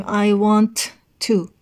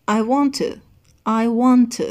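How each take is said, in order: First: "want" and "to" split by a clear pause; unlinked "want to". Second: "want to" joined as "wantuh", one T; linked "want to". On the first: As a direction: finish the T of "want", stop, then a full "to". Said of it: "دیگه ما نمیگیم". (تلفظ جدا، با مکث بین want و to) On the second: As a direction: run "want" into a weak "to" without a break. (تلفظ پیوسته want to با یک ت) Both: Shown as a demonstration.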